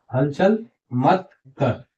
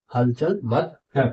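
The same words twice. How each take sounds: First: हलचल मत कर read out slowly word by word; slow reading demo. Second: हलचल मत कर repeated slowly with a slight rise on कर; slow repeat ending up; slow reading demo. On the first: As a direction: sound it out slowly for learners. (धीरे-धीरे पढ़कर दिखाना) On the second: (धीरे दोहराना, कर पर सुर ऊपर) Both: Shown as a demonstration.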